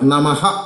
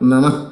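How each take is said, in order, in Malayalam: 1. ഈ വാക്ക് ശ്വാസമുള്ള h ശബ്ദത്തിൽ അവസാനിക്കുന്നു. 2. ഈ വാക്ക് സാധാരണ സ്വരാക്ഷരത്തിൽ അവസാനിക്കുന്നു. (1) "നമഃ എന്ന് ഉച്ചരിക്കരുത്" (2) "വിസർഗം എടുക്കും"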